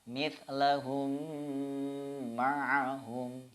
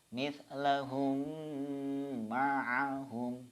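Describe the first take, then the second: No difference in how they are said.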